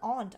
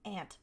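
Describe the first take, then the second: First: It is said with a British pronunciation. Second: It is said with a non-British pronunciation. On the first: This is how British people say it. The speaker calls it wrong. "Who says aunt? I'm not British" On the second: This is how the speaker says it. The speaker calls it right. "I'm not British"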